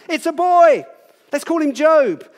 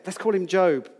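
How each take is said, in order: First: High, loud, delighted cry of a new parent; joyful announcement. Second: Said in the usual way. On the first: Acted. Happy parents name their newborn son, delighted high loud call. Parents celebrating a baby's birth.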